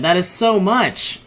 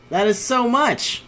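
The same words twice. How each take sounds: First: Said in the usual way. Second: High, dismayed repeat; high disbelief. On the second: Real, not acted. Gamer losing territory, high disbelieving moan. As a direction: pitch up on the repeat.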